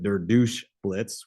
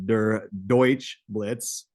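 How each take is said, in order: First: The middle word is said like English 'douche'. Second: The middle word is said the standard German way. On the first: The speaker calls it wrong. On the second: The speaker calls it right.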